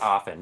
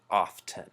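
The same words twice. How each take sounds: First: The T sound in the middle is silent. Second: The T sound in the middle is pronounced. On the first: The speaker calls it right. "it's pronounced often" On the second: The speaker calls it wrong. "a lot of people pronounce it often, which is completely wrong because the T is silent"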